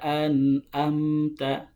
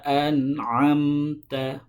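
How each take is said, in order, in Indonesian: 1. Konsonan itu hamzah dari pangkal tenggorokan. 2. Konsonan itu bunyi faringal dari tengah tenggorokan. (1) "bukan siratal ladzina an'amta" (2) "ain itu di tengah tenggorokan"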